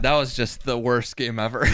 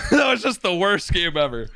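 First: Said in the usual way. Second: Laughing through the words. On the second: Real, not acted. Streamer laughing off a terrible game, laughing. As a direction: chuckle it out in disbelief.

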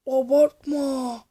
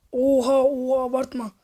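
First: Abartma stretched slowly, every syllable long; drawn-out disbelief. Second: Said in the usual way. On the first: Real, not acted. Vlogger to the stunt rider, slow drawn-out Abartma. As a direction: draw out Abartma as if you can't believe it.

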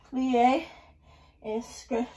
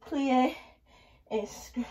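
No difference in how they are said.

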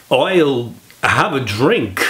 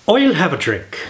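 First: Slow, halting Walken-style repeat; mock celebrity pupil botching the accent; Christopher Walken impression. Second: Mock Irish teacher showing the line; a light Irish lilt on "I'll have a drink"; dialect coach's Irish accent. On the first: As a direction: drag the line out stiffly, missing the Irish. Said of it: "Christopher, I want you to repeat after me". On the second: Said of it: "can you imagine the dialect coach".

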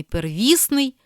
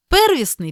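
First: Первісний as per-VIS-nyi; middle-syllable stress. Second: Первісний as PER-visnyi; high-pitched stress on PER in Первісний; first-syllable stress. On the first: Teacher giving the other variant, middle stress on первісний. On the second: Teacher reading double-stress words, first-syllable stress on Первісний. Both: Shown as a demonstration. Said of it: "слова із подвійним наголосом".

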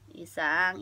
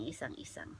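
First: Said in the usual way. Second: Much softer, lower, unvoiced whisper of "isang". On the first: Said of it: "Si Isang". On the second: Real, not acted. Vlogger calls sleeping flatmate Isang, whispering. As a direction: whisper the name so as not to wake anyone.

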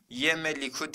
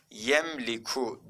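First: "Yemeliku" with an extra E after M; wrong reading. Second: "Yemliku" with M running straight into L; no vowel after M in "Yemliku"; correct reading. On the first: Teacher rules out an option, showing the wrong reading. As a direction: put a vowel between M and L in "Yemeliku". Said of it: "diye okumadık arkadaşlar". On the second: Teacher confirms the answer, showing the correct reading. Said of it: "diye okuduk". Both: Shown as a demonstration.

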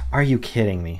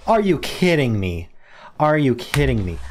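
First: Said in the usual way. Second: Loud and higher, real disbelief; can't believe he missed it, voice up; exasperated disbelief. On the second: Real, not acted. Missed a great word chance.

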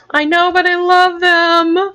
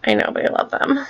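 First: Gushing. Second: A breathy whispered aside. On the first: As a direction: burst out with it, drawn out. Same words repeated loudly. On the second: Girl confiding to viewers, whispered aside. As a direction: hush it like a secret. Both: Real, not acted.

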